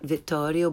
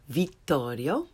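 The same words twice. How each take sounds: First: The i vowel is lax, like English 'ih'. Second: The i vowel is tense, like English 'ee'. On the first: The speaker calls it wrong. "Not Vittorio" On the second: The speaker calls it right. "but Vittorio"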